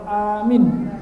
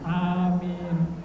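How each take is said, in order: First: The first vowel is long, the last short. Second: Both vowels are drawn out long. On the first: A command to believe. "hanya panjang, minyak pendek" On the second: May God grant the prayer. "Harus panjang ya"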